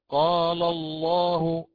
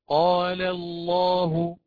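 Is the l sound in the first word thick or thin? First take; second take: thick; thin. First: The l in the first word sounds thick. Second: The l in the first word sounds thin. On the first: The speaker calls it wrong. "من الأخطاء ومن اللحون التي نسمعها" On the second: The speaker calls it right. "فالأولى مرققة"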